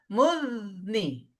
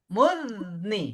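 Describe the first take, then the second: No difference in how they are said.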